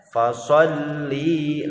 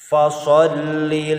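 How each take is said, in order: First: The final vowel of li is drawn out long. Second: The final vowel of li is short. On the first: The speaker calls it wrong. "dibaca panjang. Fasholli. Nah, itu salah" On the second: The speaker calls it right. "harus dibaca pendek karena tidak ada huruf mad"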